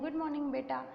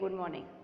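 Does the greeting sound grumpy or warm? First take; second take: warm; grumpy. First: The greeting sounds warm and relaxed. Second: The greeting sounds grumpy and reluctant.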